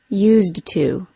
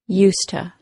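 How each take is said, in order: First: Every sound of both words is fully pronounced. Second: The phrase is reduced and blended into 'useta'. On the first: "Fully pronounced" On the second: "the common, current, yet informal pronunciation of useta"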